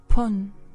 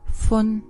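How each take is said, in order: First: The word begins with a hard p sound. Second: The word begins with a soft f sound. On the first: "Or pun" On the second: "Our ninth word is minute"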